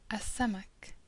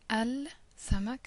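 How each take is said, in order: First: The L is dropped and the s doubled. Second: The L is pronounced before the s. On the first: The speaker calls it right. "we say as-samak" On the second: The speaker calls it wrong. "instead of saying al samak as we've done up until now"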